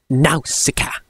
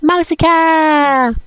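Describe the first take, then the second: First: It is said like a male trailer voiceover. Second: It is said like a female trailer voiceover. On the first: "the male voiceover for the trailer pronounced it different. He pronounced it as" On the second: "the female voiceover for um, The Valley of the Wind pronounced as"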